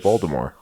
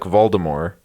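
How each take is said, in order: First: The final T sound is clearly pronounced. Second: The final T sound is left silent. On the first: "I've always pronounced the T" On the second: "Some people don't pronounce the T"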